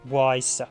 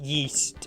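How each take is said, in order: First: The name is said to rhyme with 'size'. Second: The name is said to rhyme with 'feast'. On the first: It follows how the name is spelled. "It's Y S would be wise" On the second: It is how the game itself says it. "it's actually I think it's pronounced yeast"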